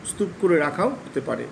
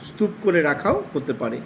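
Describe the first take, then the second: No difference in how they are said.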